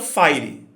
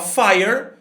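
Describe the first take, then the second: First: It ends with an extra vowel sound. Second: It ends on the final consonant sound. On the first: The speaker calls it wrong. "e não" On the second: The speaker calls it right. "a gente fala"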